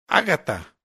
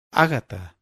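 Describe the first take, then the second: First: Respuesta brusca y cortante, más alta; suéltalo seco, de golpe. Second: Ni blando ni ligero, firme y mesurado; equilibrado. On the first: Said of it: "fue la brusca respuesta". (brusco y cortante) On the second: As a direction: dilo con calma firme, sin dureza. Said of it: "sin demasiada blandura, sin demasiada ligereza". (sereno y equilibrado) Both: A narrator's reading.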